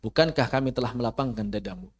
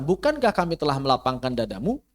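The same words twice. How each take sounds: First: Low, even reading, "dadamu" without the questioning lift; question read as statement. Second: "dadamu" swept upward at the end as a real question; question intonation. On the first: Teacher shows how wrong it sounds, "dadamu" left low and unquestioning. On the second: Teacher translates the verse as a question, "dadamu" rising clearly. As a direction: ask it, lifting DADAMU sharply on the last syllable. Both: Shown as a demonstration. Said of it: "Kan nggak enak".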